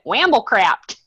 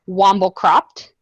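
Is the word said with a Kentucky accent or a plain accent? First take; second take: Kentucky; plain. First: It is said in a Kentucky accent. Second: It is said in the speaker's plain accent.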